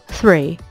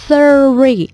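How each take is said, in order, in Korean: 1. 한 음절로 매끄럽게 발음해요. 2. 음절을 따로 끊어서 발음해요. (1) "온 신경은 re에 꽂힌 채로" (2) "많이 음절을 끊으세요"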